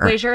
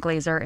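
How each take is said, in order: First: "Glazer" with a zh, like glazier; mispronounced name. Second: "Glazer" with a clean z; correct name. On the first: Guest explains the wrong version of her name, zh in "Glazer". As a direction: say "Glazer" loudly as GLAY-zher. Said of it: "and Glazer is this guy". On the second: Guest gives the right version of her name, z in "Glazer". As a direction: say "Glazer" as GLAY-zer. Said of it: "say it's Glazer". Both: Shown as a demonstration.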